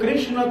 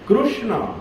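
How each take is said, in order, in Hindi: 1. पहला अक्षर kri जैसा सुनाई देता है। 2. पहला अक्षर kru जैसा सुनाई देता है। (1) "इधर के पंडित लोग उसको कृष्ण कहते हैं, क्री बोलते हैं" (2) "लेकिन एक्चुअली वो क्रू है"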